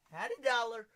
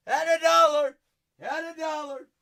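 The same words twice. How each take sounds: First: Said in the usual way. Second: High, loud repeat; excited shout. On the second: Real, not acted. Host repeating the dollar price, loud high shout. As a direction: shout the same words much louder. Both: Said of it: "Had a dollar repeated".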